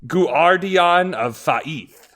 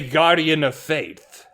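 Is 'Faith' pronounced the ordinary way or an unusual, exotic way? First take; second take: exotic; ordinary. First: Faith is given an unusual, foreign-sounding pronunciation. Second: Faith is given its ordinary English pronunciation. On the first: The name is treated as exotic and foreign. The speaker calls it right. "which I think is Egyptian" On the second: The name is treated as a plain English word. The speaker calls it wrong. "Some might say Guardian of Faith. However, they're incorrect"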